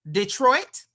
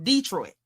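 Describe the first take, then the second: First: Detroit said the standard way, stress on the second syllable. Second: Detroit with a long, stressed DEE up front. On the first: Host showing viewers the proper name, standard pronunciation. Contrasts two ways of saying it. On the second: Host showing her folks the other Detroit, DEE-troit pronunciation. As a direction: hit the first syllable of Detroit: DEE-troit. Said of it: "is different from Detroit". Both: Shown as a demonstration.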